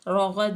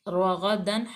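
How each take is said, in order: First: The word ends without the final 'an' sound. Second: The word ends with a final 'an' sound. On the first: The reader stops at this word. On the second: The reading continues without stopping.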